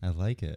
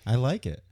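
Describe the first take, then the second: First: It is said in a calmer, toned-down way. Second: It is said with a lot of excitement.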